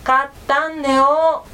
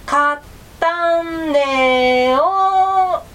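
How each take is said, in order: First: Slower mumble through closed jaws; mouth clamped shut. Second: Loud, very slow, stretched mumble through closed jaws; mumbled louder. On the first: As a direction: say it without loosening the bite. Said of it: "くわえた口を緩めないように言いました". (口を閉じたまま、ゆっくりもごもご言う狐) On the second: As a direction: force the words out with the mouth still shut. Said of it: "もっとはっきり言ってよ". (口を閉じたまま大きく、引き伸ばして言う狐) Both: A narrator's reading.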